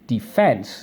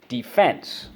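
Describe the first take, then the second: First: The stress is on the second syllable. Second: The stress is on the first syllable.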